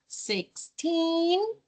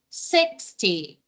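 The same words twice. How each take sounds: First: Put-on sixteen with a rising, stressed teen. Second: Sixty with a strong six and a low falling end; stress on six. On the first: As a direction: punch the end of sixteen. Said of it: "a pronúncia do teen é bem pronunciada". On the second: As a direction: hit the front of sixty. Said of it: "a primeira parte da palavra é a mais forte". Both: Shown as a demonstration.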